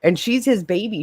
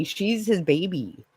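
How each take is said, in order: First: "his" stressed. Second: "his" gently stressed, slow; slower, quieter "his" stress. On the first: Insisting to viewers that he is her baby, "his" stressed. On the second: Repeating to viewers that he is her baby, quiet and slow. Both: Real, not acted.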